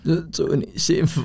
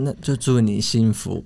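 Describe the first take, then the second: First: It is said in a choked, tearful voice. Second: It is said in a plain, steady voice.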